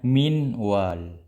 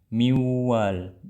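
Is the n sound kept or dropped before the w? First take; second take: kept; dropped. First: The n sound is kept before w. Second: The n is dropped and the w is nasalized. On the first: This is the original written form. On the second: This is how it is actually read. "terhapusnya nun tamaman"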